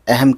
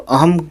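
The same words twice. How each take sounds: First: The first vowel is an 'e' sound. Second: The first vowel is an open 'a' sound. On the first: The speaker calls it right. "अहम ए आवाज़ निकालेंगे" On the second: The speaker calls it wrong. "अहम कहने के बजाय"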